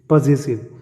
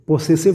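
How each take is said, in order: First: The middle consonant sounds like a 'z'. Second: The middle consonant sounds like an 's'. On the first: This is how it is said where English is spoken well. The speaker calls it right. "वहाँ पर इसको बोलते हैं पॉजेसिव case" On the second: This is the everyday version used in general. The speaker calls it wrong. "पोसेसिव नहीं बोलते"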